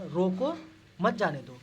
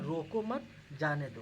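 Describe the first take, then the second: First: Louder scolding रोको with pause before मत जाने दो; scolding command. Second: Said in the usual way. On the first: Shown as a demonstration. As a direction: bark रोको like a strict teacher, then pause. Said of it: "यहाँ पे आप लोग डांट के बोलिए". (डांट के बोलना) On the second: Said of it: "तो हमारा गाइस क्या होना है".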